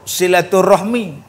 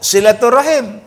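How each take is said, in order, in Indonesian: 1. Kata ini berakhir dengan bunyi 'rahmi'. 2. Kata ini berakhir dengan bunyi 'rahim'. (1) "Orang-orang Indonesia, dia sebut silaturahmi"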